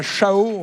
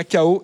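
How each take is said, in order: First: «chao» avec un ch doux, comme dans « chat »; prononciation fautive. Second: «chaos» avec un k dur au début, s muet; prononciation correcte. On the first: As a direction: dire «chao» en chuintant le début. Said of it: "On dit pas chao". (prononciation fautive de «chao», avec le son ch) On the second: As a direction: dire «chaos» comme « ka-o ». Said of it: "ça se prononce bien chaos". (prononciation correcte de «chaos», avec le son k) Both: Shown as a demonstration.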